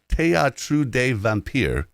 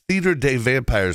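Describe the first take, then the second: First: The first word has a French pronunciation. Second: The first word has an English pronunciation. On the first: "I gave you the correct pronunciation once" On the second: "we're going to pronounce that Theater des Vampires from here on out"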